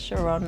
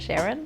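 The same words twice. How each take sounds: First: The name is said with Māori vowel sounds. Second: The name is said with English vowel sounds. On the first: This is how the name's owner says it. The speaker calls it right. "how to say my name right, because it's Sharon" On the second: This is how people who do not know her say it. The speaker calls it wrong. "not Sharon"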